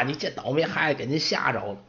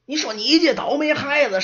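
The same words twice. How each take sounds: First: Put-on softer, apologetic old man; smooth things over with the guest; polite old servant. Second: High, louder nagging scold; scolding old servant. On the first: Old servant apologizing to the orc woman, soft and polite. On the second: Acted. Old servant scolding the apprentice for provoking the orc, nagging scold. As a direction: chew the kid out.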